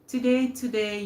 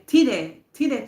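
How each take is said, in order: First: It is said in a non-Jamaican accent. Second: It is said in a Jamaican accent.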